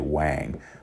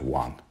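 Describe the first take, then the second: First: It is said with an American English pronunciation. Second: It is said with a Mandarin Chinese pronunciation. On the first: The speaker calls it wrong. "many people here, they'll say Wang" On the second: The speaker calls it right. "actually traditionally it's it's pronounced Wang"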